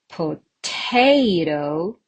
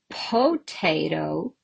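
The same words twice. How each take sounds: First: The stress is on the second syllable. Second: The stress is on the first syllable. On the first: The speaker calls it right. "Definitely the second one" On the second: The speaker calls it wrong. "I can say potato"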